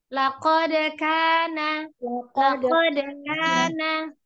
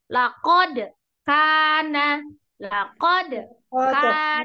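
First: The words flow together without a break. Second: The words are broken apart with a break. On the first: The speaker calls it right. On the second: The speaker calls it wrong. "contoh salahnya ya. ... itu kan putus"

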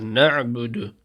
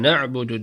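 First: The n is clearly emphasized and separate. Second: The n is weak and runs into ke. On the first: The speaker calls it right. "nun harfine vurgu yapıyoruz" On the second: The speaker calls it wrong. "Yani ke na'budu değil"

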